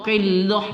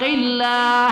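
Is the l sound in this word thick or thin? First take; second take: thick; thin. First: The l sound is thick and heavy. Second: The l sound is thin and light. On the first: The speaker calls it wrong. "qillah salah" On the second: The speaker calls it right. "kita baca tipis tarqiq"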